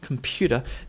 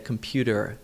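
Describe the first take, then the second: First: The ending is an 'ah' sound with no r. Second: The ending has a strong 'er' r sound. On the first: "computer is a very Aussie way of saying this word" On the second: "Americans would typically say computer"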